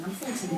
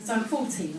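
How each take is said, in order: First: Softer, with a small laugh; quiet giggling echo; quiet amused repeat. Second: Said in the usual way. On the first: Shown as a demonstration. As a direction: drop your voice, amused at yourself.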